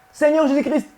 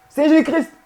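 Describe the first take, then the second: No difference in how they are said.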